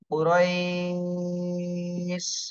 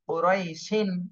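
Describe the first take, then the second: First: The word stops on sh, with a lengthened ai. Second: The word ends with an added -in sound. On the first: "এখানে বলতে হবে কুরাইশ" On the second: "এটা মূলত উচ্চারণ ছিল"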